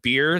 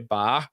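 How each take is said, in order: First: It is said with an American vowel. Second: It is said with a Filipino open vowel.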